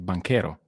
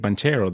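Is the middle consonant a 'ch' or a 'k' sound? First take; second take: k; ch. First: The middle consonant is a 'k' sound. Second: The middle consonant is a 'ch' sound. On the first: The speaker calls it right. "You need to say banquero" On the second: The speaker calls it wrong. "I will never let you say banchero"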